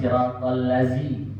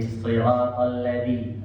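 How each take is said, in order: First: The middle consonant is a plain 'z' sound. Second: The middle consonant is a soft 'th' sound. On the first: The speaker calls it wrong. "bukan siratal lazi" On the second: The speaker calls it right. "lidahnya harus keluar dikit"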